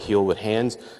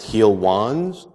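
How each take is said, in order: First: It is said as three words, heal with hands. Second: It is said as two words, heal wands. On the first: The speaker calls it right. "I go by Heal with Hands" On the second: The speaker calls it wrong. "It's not pronounced Heal Wands"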